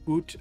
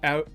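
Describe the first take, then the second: First: The vowel sounds like 'oo' in boot. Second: The vowel sounds like 'ow' in cow.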